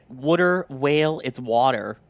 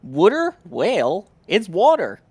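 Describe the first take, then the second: First: "water" as "wudda", then "it's water" said as "wawter"; mock Boston "wudda" for "water"; a light Boston accent on "water". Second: "Water" said "wudda", high and loud; Boston "wudda" for "Water"; Boston accent. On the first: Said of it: "hurts my jaw to say it like that". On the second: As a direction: drop the r's in "Water" like a Bostonian. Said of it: "Robert Keeper, coming in saying". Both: Shown as a demonstration.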